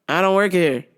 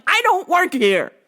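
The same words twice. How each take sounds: First: Said in the usual way. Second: High-pitched exasperated protest; mock-indignant, pitch jumping way up. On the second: Customer answering shopper a second time, high exasperated protest. Second reply after repeated request.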